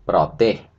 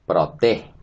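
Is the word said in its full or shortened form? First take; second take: full; full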